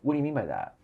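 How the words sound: It sounds like a curious, open question.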